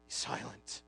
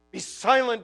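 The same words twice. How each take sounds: First: A hushed, breathy be silent; whispered command. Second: A firm, full-voiced be silent; firm command. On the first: The gospel hushing the groaning heart, whispered. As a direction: hush it like calming a child. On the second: The gospel ordering despair to stop, firm and full. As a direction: command it with authority. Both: Shown as a demonstration.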